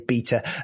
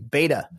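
First: It is said with a British pronunciation. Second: It is said with an American pronunciation. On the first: "when Brits say beta" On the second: "For you, we mean beta"

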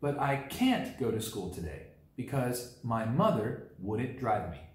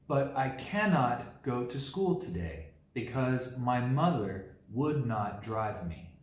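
First: The negatives are said as short contractions. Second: The negatives are said as full separate words.

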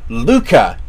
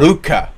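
First: The name begins with an L sound. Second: The name begins with an R sound. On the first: The speaker calls it wrong. "It is not Urushibara Luka" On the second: The speaker calls it right. "it is Urushibara Ruka"

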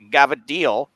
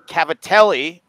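First: The word is said in a clipped dialect form. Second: The word is said in its full standard form.

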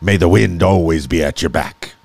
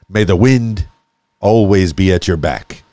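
First: It is said in a put-on pirate accent. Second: It is said in the speaker's normal accent. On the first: The speaker calls it right. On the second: The speaker calls it wrong.

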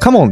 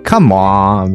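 First: The final syllable is short and plain. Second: The final syllable is stretched out long.

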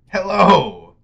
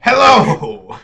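First: The greeting sounds gentler and less forceful. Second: The greeting sounds aggressive and forceful.

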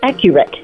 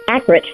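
First: The middle 'u' syllable is clearly pronounced. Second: The middle 'u' syllable is left out. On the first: The speaker calls it right. "There's a U in there" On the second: The speaker calls it wrong. "they leave the U out"

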